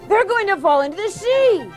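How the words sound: The voice sounds midway between older and younger.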